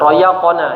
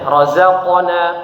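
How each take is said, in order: First: The middle consonant is a gliding y sound. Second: The middle consonant is a buzzing z sound. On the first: The speaker calls it wrong. "bukan uh, royakona" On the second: The speaker calls it right. "Jadi benar-benar bunyinya diperjelas huruf za"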